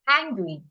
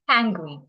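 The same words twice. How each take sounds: First: The mouth opens wide and each sound is clear. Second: The mouth barely opens and sounds are muffled. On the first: The speaker calls it right. "open your mouth well" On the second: The speaker calls it wrong. "don't open your mouth well"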